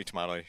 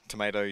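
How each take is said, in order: First: "tomato" with an AH in the middle; British pronunciation. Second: "Tomato" with an AY in the middle; soft D sound after the AY in "Tomato"; American pronunciation. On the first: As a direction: say "tomato" as tuh-MAH-toh. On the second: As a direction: say "Tomato" as tuh-MAY-doh. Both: Shown as a demonstration. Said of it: "I can say both".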